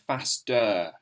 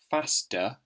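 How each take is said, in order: First: It ends with a strong, clear 'er' sound. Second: It ends with a short, weak 'uh' sound. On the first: "you don't really hear faster. It's not a really clear er sound" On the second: "When you say it"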